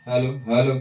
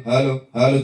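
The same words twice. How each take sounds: No difference in how they are said.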